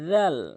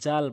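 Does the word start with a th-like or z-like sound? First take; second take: th-like; z-like. First: The first sound is a th-like sound. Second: The first sound is a z-like buzz. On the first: The speaker calls it right. "বলতে হবে জাল, জিব্বার আগা সামনে দুটি দাঁতের আগা" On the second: The speaker calls it wrong. "যদি আপনি জাল বলেন"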